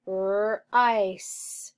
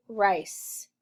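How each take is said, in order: First: Rice drawn out sound by sound; stretched sounding-out. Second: Said in the usual way. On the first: Shown as a demonstration. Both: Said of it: "read, rice".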